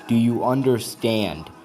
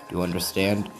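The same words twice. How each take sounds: First: It is said in a louder voice. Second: It is said at a normal, softer volume.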